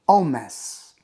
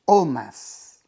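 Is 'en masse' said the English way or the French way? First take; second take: French; French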